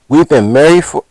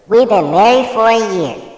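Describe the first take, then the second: First: It is said in his normal voice. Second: It is said in a put-on voice.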